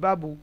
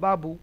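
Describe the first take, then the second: Both takes have the same delivery.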